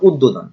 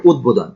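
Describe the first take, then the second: First: উদ্বোধন said wrongly as "uddodhon"; common mispronunciation. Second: উদ্বোধন with both d and b sounded; correct pronunciation. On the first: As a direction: say উদ্বোধন with the b lost into a doubled d. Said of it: "আসলে এখানে উদ্বোধন না". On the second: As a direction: say উদ্বোধন as "ud-bodhon". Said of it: "উচ্চারণ হবে উদ্বোধন". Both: Shown as a demonstration.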